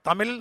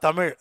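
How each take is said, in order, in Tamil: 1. கடைசி எழுத்து சாதாரண ல போன்ற ஒலி. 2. கடைசி எழுத்து சிறப்பு ழ ஒலி. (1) "தமிழ் சொல்லக்கூடாது" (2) "தமிழ்னு சொன்னாதான் தமிழ்"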